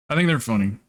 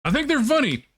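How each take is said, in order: First: Said in the usual way. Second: Much higher squeaky mock tone; high silly voice. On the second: Shown as a demonstration. Streamer jokes to chat in a high squeaky voice. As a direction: pitch it way up for a joke.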